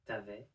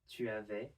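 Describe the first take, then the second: First: The U vowel of 'tu' is dropped. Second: The U vowel of 'tu' is pronounced. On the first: This is the quick, informal form. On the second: This is the careful, formal form.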